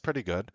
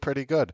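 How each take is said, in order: First: It is said in a lukewarm, unimpressed tone. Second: It is said in an enthusiastic, pleasantly surprised tone. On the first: The movie was fine but not impressive. "but you know, was it the greatest movie you've ever seen?" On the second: The movie beat low expectations. "the same words with a different sense of optimism"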